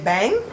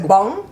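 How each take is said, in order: First: The vowel is the American A sound. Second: The vowel is not the American A sound. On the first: "That's the way we say that A" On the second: "some people say bong"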